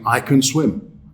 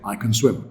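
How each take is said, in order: First: The word 'can' is stressed and fully pronounced. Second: The word 'can' is unstressed and reduced. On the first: The speaker calls it wrong. "We don't actually say that" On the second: The speaker calls it right. "in natural conversation with no stress required"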